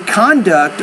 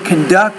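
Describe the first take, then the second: First: The stress follows the noun pattern. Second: The stress follows the verb pattern. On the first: The word is used as a noun. "I'm using those words as nouns" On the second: The word is used as a verb. "I'm using those words as verbs"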